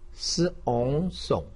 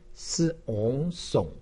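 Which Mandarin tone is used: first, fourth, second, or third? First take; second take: third; third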